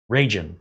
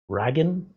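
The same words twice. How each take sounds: First: Ragin said as "RAY-jin", falling and settled; corrected pronunciation. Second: Ragin said rhyming with "wagon", rising like a question; mispronounced guess. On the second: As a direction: Ragin read with a short a and a hard g, asking. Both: Shown as a demonstration.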